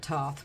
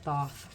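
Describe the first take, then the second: First: The word begins with a plain t sound. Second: The word begins with a th sound. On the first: This is how other people say it. "they pronounce it Toth" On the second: This is the speaker's own way of saying it. "but I, I pronounce it Thoth"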